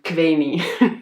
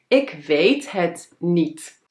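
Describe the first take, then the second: First: The word 'het' is dropped before 'niet'. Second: The word 'het' is said before 'niet'. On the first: It is the relaxed way of talking with friends. "dan ga ik los met mijn vrienden en dan zeg ik" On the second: It is the neat, proper way of talking. "nette mensen die zeggen"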